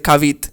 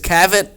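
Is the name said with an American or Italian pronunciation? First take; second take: Italian; American. First: The name is said with an Italian pronunciation. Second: The name is said with an American pronunciation. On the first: "my mom, I'm pretty sure she pronounces it Kavit" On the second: "The American would read it as Kavit"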